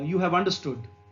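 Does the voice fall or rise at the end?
fall. It is said as a statement, falling at the end.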